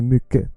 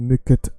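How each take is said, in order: First: The T sound is left out of the word. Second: The T sound is pronounced in the word. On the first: The speaker calls it right. "just say mycket. Take away the T" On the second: The speaker calls it wrong. "don't say mycket"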